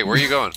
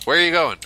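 First: Said in the usual way. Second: Louder, higher, insistent repeat; raised, demanding call; calling after someone. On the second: Real, not acted. Calling after a departing game character.

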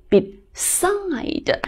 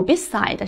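First: "beside" slow, with a long falling stress on "side"; stress on second syllable. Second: "beside" said quickly, with no long stress on "side"; unstressed second syllable. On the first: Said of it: "而是读beside". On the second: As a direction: run "beside" together without leaning on "side". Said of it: "它没有读beside". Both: Shown as a demonstration.

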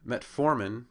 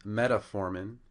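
First: Metformin as two-part met-FOR-min; stress on second syllable. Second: Metformin stretched to MET-a-for-min; stress on first syllable. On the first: Lecturer showing the correct drug name, Metformin stressed on second syllable. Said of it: "on the second syllable". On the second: Lecturer showing a common error, metformin stressed on first syllable. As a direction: mispronounce metformin with an extra vowel after stressed MET. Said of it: "is now on the first syllable". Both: Shown as a demonstration.

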